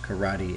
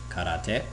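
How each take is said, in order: First: It is said with an English pronunciation. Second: It is said with a Japanese pronunciation. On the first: "while it is pronounced karate in English" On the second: "is not pronounced the same way in Japanese. It's pronounced karate"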